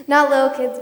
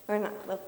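First: "not" punched much louder; stress on not. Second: Said in the usual way. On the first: Real, not acted. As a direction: hit "not" hard, correcting.

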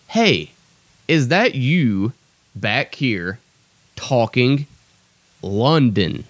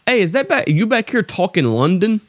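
First: Word by word, with a pause after each chunk; measured quote, broken into pieces; deliberate verbatim repeat. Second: High-pitched mock coworker voice; imitated coworker. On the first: Shown as a demonstration. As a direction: spell it out slowly for the audience. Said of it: "I'll repeat that". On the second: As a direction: blurt it as a puzzled question, pitched way up. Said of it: "and he's like".

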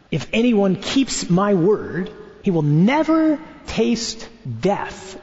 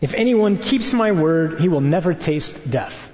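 First: Drawn out slowly, rising on never; slow, weighty. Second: Said in the usual way. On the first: Shown as a demonstration. Preacher repeating the verse slowly for the congregation, with weight. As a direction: lay it out slowly as if to a friend. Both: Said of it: "Try saying this to your friend tonight".

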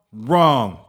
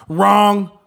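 First: Said in the usual way. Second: High, loud emphatic wrong; shouted Wrong. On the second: Real, not acted. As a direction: slam the word Wrong like a verdict. Punchline rebuttal to own plan.

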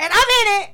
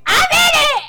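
First: Higher, louder excited brag; building up the big news. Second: Much higher, louder shout; excited shout. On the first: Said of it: "excited announcement of her play". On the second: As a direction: yell it out proudly. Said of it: "excited announcement, peak". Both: Real, not acted.

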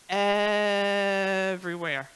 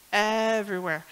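First: Everywhere stretched long and slow, falling; drawn-out emphasis. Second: Said in the usual way. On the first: Shown as a demonstration. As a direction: drag out the word everywhere. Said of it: "there was smeared nail polish".

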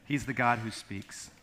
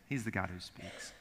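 First: Said in the usual way. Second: Softer, lower repeat. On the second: Shown as a demonstration. Pastor repeats the line softly to the congregation. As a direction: let it settle quietly. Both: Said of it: "repeated statement".

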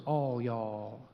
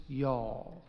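First: "all y'all" much lower, softer, Texas drawl; Southern all y'all. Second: "y'all" softer, lower, Texas drawl; Southern y'all. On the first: Preacher to his congregation, joking about the bigger plural in a low drawl. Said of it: "Some people say the plural is". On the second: Preacher to his congregation, naming the Southern plural in a softer drawl. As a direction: stretch "y'all" slowly, Southern style. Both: Shown as a demonstration.

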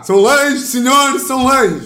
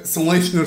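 First: Put-on high trembling old-man announcer; shaky octogenarian radio voice. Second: Said in the usual way. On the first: Shown as a demonstration. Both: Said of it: "Eu também faço bem".

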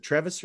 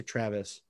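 First: "Travis" said as TREV-iss; alternate pronunciation. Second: Said in the usual way. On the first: Shown as a demonstration. Host checking a player's name, alternate pronunciation of "Travis" as TREV-iss. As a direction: say "Travis" with an eh in the first syllable. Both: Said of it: "Is it Travis or Travis?".

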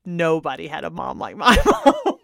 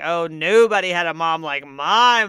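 First: A laugh breaking into the last word; grinning boast that cracks into a laugh. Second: Mock lament. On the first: Real, not acted. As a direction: laugh through the claim. Her own claim, laughing through it.

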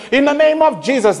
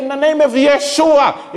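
First: Lifted preacher's cry on "Jesus"; emphatic invocation. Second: High, loud declaration of the name; lifted preacher's cry on "Yeshua"; emphatic invocation. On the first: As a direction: proclaim "Jesus" up high. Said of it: "It's also not saying". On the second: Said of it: "So if you say". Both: Retold or imitated.

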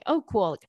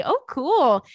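First: Said in the usual way. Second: High, loud excited reaction. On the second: Real, not acted. Reacting to cruise invite.

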